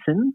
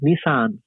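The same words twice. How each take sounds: First: It is said in an Australian accent. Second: It is said in an American accent.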